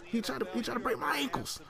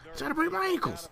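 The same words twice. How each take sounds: First: Said in the usual way. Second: Pitched-up protest about a dirty hit; high indignant whine. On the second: Real, not acted. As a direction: repeat it much higher, outraged. Repeats the complaint, much higher.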